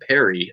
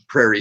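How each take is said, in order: First: It sounds like the name Perry. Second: It sounds like the word prairie. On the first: The speaker calls it right. "supposed to be pronounced like a name" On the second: The speaker calls it wrong. "I'm pronouncing it wrong"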